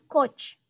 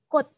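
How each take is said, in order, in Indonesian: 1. Kata ini diakhiri bunyi ch. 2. Kata ini diakhiri bunyi t. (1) "bukan coach" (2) "Maka dibaca coat"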